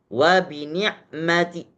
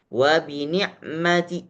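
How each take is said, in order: First: The phrase ends with a faint short vowel. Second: The phrase ends with a faint short vowel.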